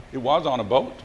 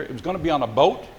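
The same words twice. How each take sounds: First: Emphasis on "was", confirming it; "was" stressed against what was planned. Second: Said in the usual way. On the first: Real, not acted. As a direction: lean on "was" to confirm the fact. Confirms the plan came true.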